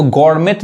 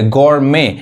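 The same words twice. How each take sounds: First: गॉरमेट with the final t sounded; wrong pronunciation. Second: गॉरमे ending on an open "may"; silent T. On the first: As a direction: say गॉरमेट closing on a T. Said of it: "इसको गॉरमेट नहीं कहेंगे". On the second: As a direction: say गॉरमे with no t at the end. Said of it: "बस यहाँ तक पढ़ेंगे". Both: Shown as a demonstration.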